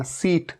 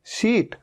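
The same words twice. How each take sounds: First: सीट with a plain s, "seet"; wrong sound for sheet. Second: शीट with a clear sh, "sheet"; correct sh sound. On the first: Teacher warning against saying "seet" for sheet. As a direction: say सीट with s in place of sh. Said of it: "इसे सीट नहीं कहना". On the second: Teacher correcting students to "sheet". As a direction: say शीट starting with sh. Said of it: "ये तो शीट है". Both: Shown as a demonstration.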